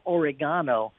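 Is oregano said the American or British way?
British. It is said the British way. "they go oregano"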